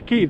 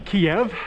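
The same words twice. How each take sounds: First: The city name is said the Ukrainian way. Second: The city name is said the Russian way. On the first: The speaker calls it right. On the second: The speaker calls it wrong.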